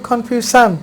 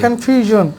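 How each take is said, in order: First: The ending is said with a sh sound. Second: The ending is said with a zh sound. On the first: The speaker calls it wrong. "বাঙালি বলে কনফিউশন, মারাত্মক ভুল বলে" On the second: The speaker calls it right. "এস আই ওয়েন এ জ হয়"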